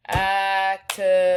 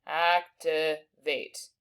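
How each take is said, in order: First: Activate said slowly, split into syllables; teacher splitting activate for spelling. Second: Activate stretched very slowly; teacher sounding out activate again. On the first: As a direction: chop Activate into its beats. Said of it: "three syllables". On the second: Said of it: "And then we finally have vate". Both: Shown as a demonstration.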